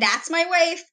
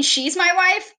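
First: "that's" leaned on, higher pitch throughout; pitched-up phrase with emphasis on "that's"; stress on "that's". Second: "she's" leaned on, higher pitch, rising end; higher voice with emphasis on "she's"; stress on "she's". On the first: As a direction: contrast "that's" against "she's". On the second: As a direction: contrast "she's" against "that's", pitched up. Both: Shown as a demonstration. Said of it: "There's a difference between".

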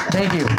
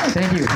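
The two takes are said the same way.

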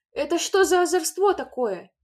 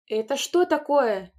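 First: Much higher and louder scolding; a furious mother's cry; angry shout. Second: Loud, higher, slow angry demand; mother explodes at the sight; angry shout. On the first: Mother to the children, furious scolding. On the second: Mother to the children, angry shout. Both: A narrator's reading. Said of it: "сердито закричала она".

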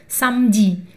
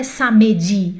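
First: "samedi" corrected to sam-di, two syllables; silent E. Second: "samedi" wrongly in three syllables, sa-mé-di; mistaken voiced E. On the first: Teacher corrects the mistake, samedi with silent E. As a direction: drop the middle E of "samedi". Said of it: "Ele fica meio mudo ali". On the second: Teacher shows the learners' mistake, pronounced middle E. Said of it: "Não é samedi". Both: Shown as a demonstration.

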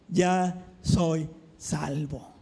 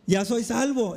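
First: "ya soy salvo" drawn out low and slow; tender, slow confession. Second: Said in the usual way. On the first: Retold or imitated. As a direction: breathe out "ya soy salvo" gently. Retold joyful announcement. (confesión lenta y tierna)

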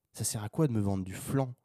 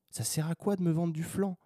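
First: Said in the usual way. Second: Fed-up rhetorical question, pitched high; higher, insistent repeat. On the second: Real, not acted. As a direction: pitch it up, exasperated. Repeats question with more force.

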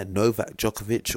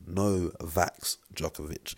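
First: Said in the usual way. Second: "Novak" said slowly as "No Vax"; punning title pronunciation. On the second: Shown as a demonstration. Vlogger reading his punning video title, "Novak" slowly turned into "No Vax". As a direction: draw out "Novak Djokovic" as "No... Vax Djokovic".

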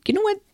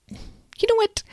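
First: Said in the usual way. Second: Whispery, conspiratorial lead-in; hushed teaser. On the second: Real, not acted. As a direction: repeat it in a half-whisper to build suspense.

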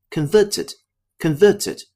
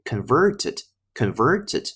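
First: Converted with no r after the first vowel; converted said slowly, "con-vuh-ted"; 英式发音的converted; British converted. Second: Converted with a curled r in the middle; converted slowly, r sounded in "ver"; 美式发音的converted; American converted. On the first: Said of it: "包括前面的converted". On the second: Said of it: "那美音呢是converted". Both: Shown as a demonstration.

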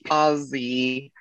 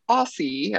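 First: "Aussie" with a buzzing z, "Ozzie"; "Aussie" imitating Australians, drawn out as "Ozzie"; Australian pronunciation. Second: "Aussie" with a hissed s, "Ossie"; "Aussie" said as "AH-see", rising at the end; American pronunciation. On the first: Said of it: "you all say it and it sounds cool". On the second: Shown as a demonstration. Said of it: "and I say it and I'm like".

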